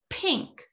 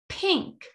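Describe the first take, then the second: The two takes are said the same way.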